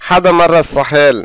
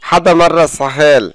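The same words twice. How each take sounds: The two takes are said the same way.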